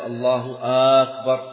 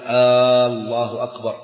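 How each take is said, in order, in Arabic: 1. تُمدّ الهمزة في أول الكلمة الثانية. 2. تُمدّ الهمزة في أول الكلمة الأولى. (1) "لا يمد الهمزة في الجزء الثاني" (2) "ألا يمد الهمزة في الجزء الأول"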